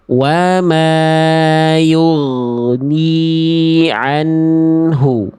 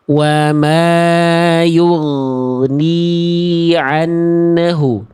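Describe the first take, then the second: First: The n sound flows smoothly into the h. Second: An extra bouncing vowel follows the n sound. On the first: The speaker calls it right. "Semestinya bunyi nunnya kita antar" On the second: The speaker calls it wrong. "Ada bunyi memantul pada huruf nun yang semestinya nggak perlu ada"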